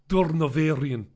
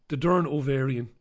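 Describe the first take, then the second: First: Durnovarian run together as one name; name as one word. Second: Durn Ovarian, split after Durn; name split in two. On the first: Reading out a viewer's name, Durnovarian as one word. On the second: Re-reading a viewer's name, split as Durn Ovarian. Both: Real, not acted.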